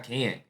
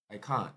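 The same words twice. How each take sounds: First: Can't with a flat a as in ant; American can't. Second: Can't with a long broad ah, kɑ̃; South African can't. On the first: Host contrasting with his own American can't. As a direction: say can't like kant. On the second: Host imitating the South African can't. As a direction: say can't like cahnt. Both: Shown as a demonstration. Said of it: "Not can't".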